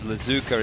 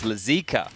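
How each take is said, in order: First: The middle vowel sounds like 'oo'. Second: The middle vowel sounds like 'ee'. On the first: The speaker calls it wrong. "the pronunciation of Lazuka" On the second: The speaker calls it right. "is Lazika"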